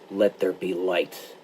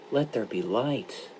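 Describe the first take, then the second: First: It is said as a firm demand. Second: It is said as a sorrowful request.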